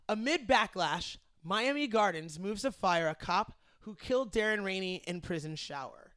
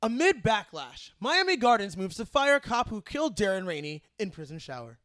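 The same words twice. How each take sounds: First: Newscaster voice. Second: Punchy, louder news anchor read; harder newscaster voice. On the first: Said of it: "How was my newscaster voice?". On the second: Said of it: "We gotta go harder". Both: Shown as a demonstration.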